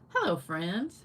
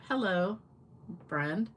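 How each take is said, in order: First: It is said with no pause between words. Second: It is said with a pause after hello.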